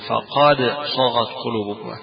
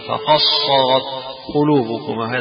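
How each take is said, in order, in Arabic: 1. تُنطق الدال منفصلة قبل السين. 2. تُدغم الدال في صوت السين الذي بعدها. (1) "وأكثر قراء على عدم الإدغام في ذلك" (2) "بالإدغام فيها"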